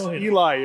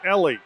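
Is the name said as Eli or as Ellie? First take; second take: Eli; Ellie. First: The name is pronounced like 'Eli'. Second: The name is pronounced like 'Ellie'. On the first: The speaker calls it wrong. "I pronounced the name as Eli" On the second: The speaker calls it right. "It's Ellie"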